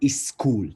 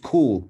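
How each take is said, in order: First: An extra vowel is added before the s sound. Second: The word starts directly with the s sound. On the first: The speaker calls it wrong. "not is school" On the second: The speaker calls it right. "This is school"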